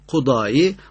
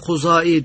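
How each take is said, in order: First: The middle consonant is pronounced as 'd'. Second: The middle consonant is pronounced as 'z'. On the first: "Datla olunca bazen Kudai" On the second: "bazen de Kuzai diye telaffuz ediyoruz"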